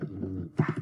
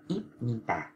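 First: Im nhi tà with the p turned into m; correct reading. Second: Íp nhi tà with a hard p, the wrong way; wrong reading. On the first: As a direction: say im nhi tà, with b changed to an m before n. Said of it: "Đây là im nhi tà". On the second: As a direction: say íp nhi tà with a clear p sound, as the mistake. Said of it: "Người ta không đọc là". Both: Shown as a demonstration.

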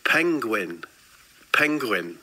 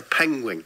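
First: Penguin carefully ending in n; penguin said correctly. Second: Penguin ending in an ng sound; penguin as "pengwing". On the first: Answering friend who queried the word, penguin with final n. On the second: Telling friend of a surprise sighting, penguin said "pengwing". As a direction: say penguin with a final "-wing". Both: Real, not acted. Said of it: "Are you saying penguin?".

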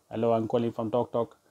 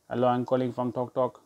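First: Lightly mimicked call-centre spiel; cold caller. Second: Lightly mimicked female telemarketer; young lady caller. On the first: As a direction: put on a cold caller reciting a script. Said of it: "it's the usual spiel". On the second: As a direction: put on a young woman's scripted greeting. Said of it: "this young lady comes on the phone".

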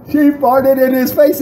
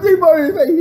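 First: Incredulous high-pitched restatement; high, clear repeat. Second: Very high, garbled mock-laughing squeal; imitating laughing friend. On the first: Retold or imitated. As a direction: articulate it fully in a raised, excited voice. Clear repeat after bouncer's "What?. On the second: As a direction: squeeze the words out as if helpless with laughter. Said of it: "he's laughing so hard".

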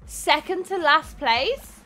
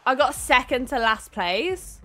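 First: Slow, stunned rising question; disbelieving echo. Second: Said in the usual way. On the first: Real, not acted. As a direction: repeat "Second to last place?" slowly in disbelief.

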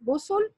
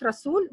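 First: رسل as rusul, two short u sounds; short vowels. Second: رسول with a long oo in the last syllable; singular رسول, rasool with a long oo; long second vowel. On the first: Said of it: "This is plural". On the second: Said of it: "Not رسول. This is plural". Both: Shown as a demonstration.

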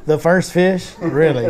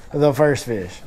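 First: Retold incredulous question, pitched up on "first fish"; mock disbelief. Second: Deadpan retold repeat, falling at the end; resigned disbelief. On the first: Angler retelling his reaction to John's first catch, disbelieving. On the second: Angler repeating his reaction to the first catch, resigned. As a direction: let "first fish" drop as a resigned statement. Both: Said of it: "And I'm like".

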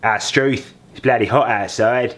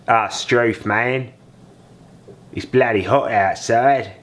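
First: Second go at a mock Australian accent; retry of the Australian line, "Struth" rising. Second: Slow, hammed-up mock Australian accent; mock Australian drawl, "Ah, Struth" stretched out. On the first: Dad retrying his Australian accent after a miss. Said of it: "No, that wasn't right. Hang on". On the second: Dad showing off his Australian accent to viewers, hammed-up. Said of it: "put on my Australian accent". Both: Shown as a demonstration.

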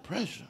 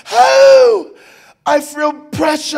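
First: Soft questioning repeat, rising at the end; quiet puzzled echo. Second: High, loud, slow wail; mimicked labor wail. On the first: Retold or imitated. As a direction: echo it back softly as a question. Husband quietly echoes the wife. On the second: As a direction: wail as the wife in labor, drawing out the words. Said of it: "Just like that".

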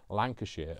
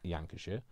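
First: Said in the usual way. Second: Lancashire said with a Y in place of the L; "Yankashire" for Lancashire; blended county name. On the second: Pretend. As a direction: start Lancashire like Yorkshire, as "Yankashire". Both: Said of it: "Lancashire is Yorkshire and, and Lancashire mixed together".

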